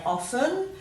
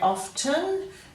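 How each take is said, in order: First: The T sound is left out entirely. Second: The T sound is clearly pronounced. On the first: This is the newer way many people say it. "many people also say often" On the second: This is the older, traditional way of saying it. "some people still say often"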